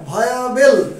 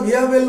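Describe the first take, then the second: First: The first syllable sounds like 'vie'. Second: The first syllable sounds like 'vee'. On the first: The speaker calls it right. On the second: The speaker calls it wrong.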